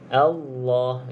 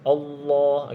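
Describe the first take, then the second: First: The first vowel sounds open, like 'a'. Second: The first vowel sounds rounded, like 'o'. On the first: The speaker calls it right. "pastikan hamzah jelas sebutan a a" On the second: The speaker calls it wrong. "jangan o. ... bukan bukan macam tu"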